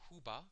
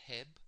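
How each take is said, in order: First: The word is said as two syllables. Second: The word is said as one short syllable. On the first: This is how it is said in the speaker's own dialect. "We pronounce it Huba in our dialect of the golden beetle" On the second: Other people say it this way. "Some pronounce it Heb"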